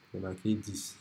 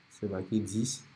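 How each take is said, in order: Both takes have the same delivery.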